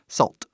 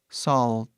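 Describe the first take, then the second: First: The word is said at a normal speed. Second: The word is said slowly and carefully. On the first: "É a maneira que falamos normal" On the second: "eu tô falando devagar"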